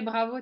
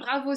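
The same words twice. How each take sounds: First: It is said with calmer, less lively enthusiasm. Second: It is said with strong, lively enthusiasm. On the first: The child succeeded only after help. "Mais c'est moins enjoué" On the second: The child succeeded on the first try. "le renforçateur doit être plus fort"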